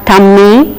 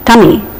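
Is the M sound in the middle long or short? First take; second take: long; short. First: The middle M sound is long and doubled. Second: The middle M sound is short and light. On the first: The speaker calls it wrong. "It is not tummy" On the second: The speaker calls it right. "it is tummy"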